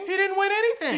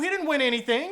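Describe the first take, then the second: First: "He didn't win anything." repeated much higher with a stronger push; higher, stressed repeat. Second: Said in the usual way. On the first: Real, not acted. Repeating his point to viewers, higher. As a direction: go up high on the repeat for emphasis.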